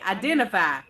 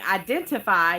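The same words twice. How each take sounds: First: The T sound in the word is dropped. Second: The T sound in the word is pronounced. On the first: "take the T out of everything" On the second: "instead of saying identify"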